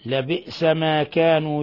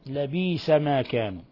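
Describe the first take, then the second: First: A glottal stop follows the b. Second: A long ee vowel follows the b.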